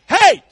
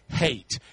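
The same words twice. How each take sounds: First: The word is screamed loudly. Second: The word is said at normal volume.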